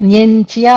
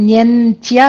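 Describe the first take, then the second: Both takes have the same delivery.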